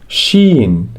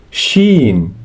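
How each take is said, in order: No difference in how they are said.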